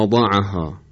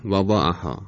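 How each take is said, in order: First: Emphatic, heavy ض in «وضعها»; ضاد با اطباق. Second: Thin, unvelarized ض in «وضعها»; ضاد بدون اطباق. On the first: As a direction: say «وضعها» with the tongue raised on ض. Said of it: "ضاد اونطور که باید تلفظ بشه". («وضعها» با ضاد مُطبَق) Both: Shown as a demonstration.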